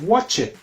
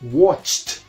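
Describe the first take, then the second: First: The ending is an extra syllable, like 'id'. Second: The ending is a short 't' sound, no syllable. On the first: The speaker calls it wrong. "no es watch it" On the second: The speaker calls it right. "es watched"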